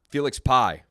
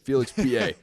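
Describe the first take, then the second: First: The surname sounds like the word pie. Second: The surname sounds like two syllables, pay-ah. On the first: The speaker calls it wrong. "I know it's not Pie" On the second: The speaker calls it right. "I've struggled with the pronunciation of his name"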